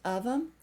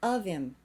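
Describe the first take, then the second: First: The reduced word has an 'um' vowel. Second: The reduced word has an 'im' vowel. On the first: "You can say um" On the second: "or im"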